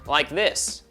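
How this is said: The voice sounds bright and twangy. "Or I can be quite twangy"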